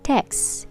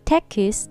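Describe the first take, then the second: First: The word is said with one syllable. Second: The word is said with two syllables. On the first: The speaker calls it right. "So it is one syllable word" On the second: The speaker calls it wrong. "that becomes two syllable word"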